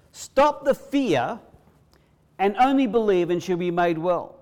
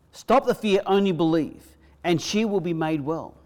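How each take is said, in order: First: Higher, louder, Stop the fear drawn out slowly, the rising; slow, stretched command. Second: Higher, louder command, stop hit hard; strong voice. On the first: Preacher repeating Jesus to the congregation, slow and emphatic. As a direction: spell out each word like a vow. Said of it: "in a strong voice". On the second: Jesus telling Jairus in a strong voice, stop the fear. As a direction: speak it with full authority. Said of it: "he told him in a strong voice". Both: Acted.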